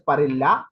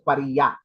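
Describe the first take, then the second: First: The double L is said as an L sound. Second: The double L is said as a Y sound. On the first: The speaker calls it wrong. "you cannot say it as Parilla" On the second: The speaker calls it right. "you have to say it as Pariya"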